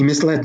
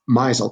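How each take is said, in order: First: It is said as mis-led. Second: It is said like mizzled. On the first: The speaker calls it right. "He misled me" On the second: The speaker calls it wrong. "the past tense of the verb misel"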